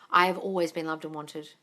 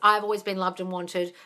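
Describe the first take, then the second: First: It is said slowly, with conviction. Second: It is rattled off quickly, by rote.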